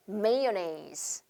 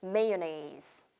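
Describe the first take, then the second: First: Soft, careful "mayonnaise" as MAY-nez; softly spoken "mayonnaise" demo; pronunciation demo. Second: Soft, careful "mayonnaise" as MAY-o-nez; gentle model word "mayonnaise"; pronunciation demo. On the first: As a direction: model "mayonnaise" clearly for repeating. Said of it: "이렇게 발음해요". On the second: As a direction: model "mayonnaise" slowly and softly. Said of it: "어떻게 발음한다". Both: Shown as a demonstration.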